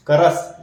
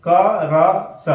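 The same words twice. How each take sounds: First: करस said as one word; letters blended into one word; joined reading. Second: क र स as three separate slow sounds; slow letter-by-letter spelling; spelled out slowly. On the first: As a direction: run the sounds together into करस. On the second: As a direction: sound out क, र, स one by one. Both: Shown as a demonstration. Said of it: "लेकिन पढ़ेंगे क्रिस".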